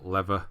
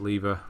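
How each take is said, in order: First: It is said with an American pronunciation. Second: It is said with a British pronunciation.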